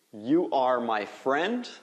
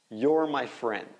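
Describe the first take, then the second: First: "You are" as two slow, separate words; full form. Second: "You're" as one syllable, like "yor"; contracted form. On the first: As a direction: say "You are" uncontracted, rising at the end. (forma completa, "You are" em duas palavras) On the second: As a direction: blend "You're" into one word, falling at the end. (forma contraída, "You're" soando como "yor") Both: Shown as a demonstration. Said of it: "Faz a contração".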